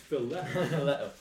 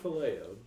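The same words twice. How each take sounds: First: It does not sound like 'filet-o'. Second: It sounds like the fish word 'filet-o'. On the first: The speaker calls it right. "It's phileo" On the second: The speaker calls it wrong. "It's not phileo. You do that to fish"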